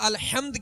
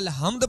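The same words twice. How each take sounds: First: The 'h' comes from deep in the throat. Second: The 'h' is a light, plain breathy sound. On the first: The speaker calls it right. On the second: The speaker calls it wrong.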